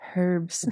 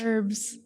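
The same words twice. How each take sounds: First: The word begins with a clear h sound. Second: The word begins without any h sound. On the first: This is the British way the speaker dislikes. The speaker calls it wrong. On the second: This is the speaker's preferred American way. The speaker calls it right.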